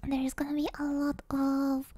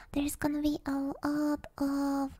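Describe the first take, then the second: No difference in how they are said.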